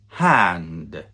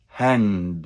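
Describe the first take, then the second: First: "hand" slow with an open æ; correct hand slow. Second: "Hand" with a wide open æ vowel; correct hand. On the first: Teacher slowly modelling the correct hand. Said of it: "It should be". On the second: Teacher repeating the correct hand. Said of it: "It should be hand". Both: Shown as a demonstration.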